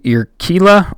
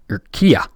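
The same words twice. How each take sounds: First: The double L is said as an L sound. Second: The double L is said as a Y sound.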